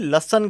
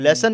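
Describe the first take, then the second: First: The first vowel is a short 'uh' sound. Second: The first vowel is a clear 'e' sound. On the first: This is the slang form people use nowadays. "लसन कहते हैं" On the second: This is the standard form of the word. "लेसन नहीं"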